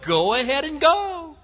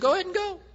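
First: It is said in an overly sarcastic tone. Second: It is said in a plain, sincere tone. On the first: The speaker means the opposite and mocks the decision. "probably in an overly sarcastic tone" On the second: The speaker genuinely urges the listener to go. "he wants to finish off Ahab"

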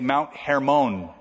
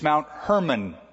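First: Hermon is said with its Hebrew pronunciation. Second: Hermon sounds like the English name Herman. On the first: The speaker calls it right. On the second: The speaker calls it wrong. "so that you don't get that confused with Hermon Munster"

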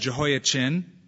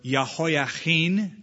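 First: The name has its usual English pronunciation. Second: The name has a Hebrew pronunciation.

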